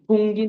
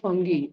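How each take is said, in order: First: The first vowel sounds like the one in 'food'. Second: The first vowel sounds like the one in 'fun'. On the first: The speaker calls it wrong. "फुंगी नहीं" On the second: The speaker calls it right.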